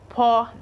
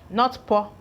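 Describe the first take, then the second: First: The vowel is drawn out long. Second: The vowel is short. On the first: The speaker calls it right. "it is lengthy, sounding a little bit lengthier than normal" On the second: The speaker calls it wrong.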